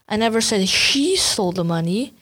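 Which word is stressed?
she. The stress is on "she".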